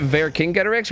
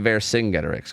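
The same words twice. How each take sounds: First: "Vercingetorix" with a hard K sound: ver-KING-get-or-ix. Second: "Vercingetorix" with a soft S sound: ver-SING-get-or-ix. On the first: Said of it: "do you pronounce it Vercingetorix or". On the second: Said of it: "or do you pronounce it Vercingetorix". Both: Shown as a demonstration.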